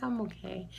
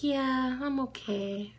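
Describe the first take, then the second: First: Said in the usual way. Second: Lightly voiced little girl, high at the start; a hint of a child's drawn-out answer; Lila. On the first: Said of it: "I'm like". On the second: Niece answering her worried aunt, childlike reassurance. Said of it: "She's like".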